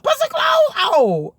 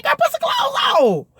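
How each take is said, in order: First: Much higher yell, dragged slow; slowed mock shout. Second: Much higher, far-off yell; mock shout. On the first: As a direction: stretch the yell out slowly. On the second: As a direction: holler at the sister to cover up. Yelling at freaky sister.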